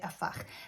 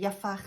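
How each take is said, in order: First: The word begins directly with a vowel. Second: The word begins with a 'y' sound. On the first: "some people say afach" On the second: "Some people say yafach"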